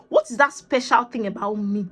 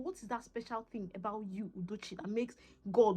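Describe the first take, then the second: First: Said in the usual way. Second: Very soft, almost to herself; intimate, much quieter musing; hushed self-questioning. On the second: Retold or imitated. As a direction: drop right down and ask yourself. Asking herself again, addressed by name.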